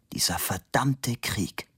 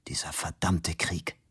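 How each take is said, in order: First: A slower, heavier whisper, verdammte falling; slow whispered curse. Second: Breathy whisper, leaning on verdammte; whispered curse. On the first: Fabian repeating it to himself, a slow heavy whisper. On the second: Fabian to himself, exhausted after running, a whispered curse. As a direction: hiss it softly under your breath. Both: A narrator's reading.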